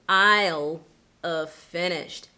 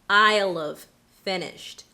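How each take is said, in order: No difference in how they are said.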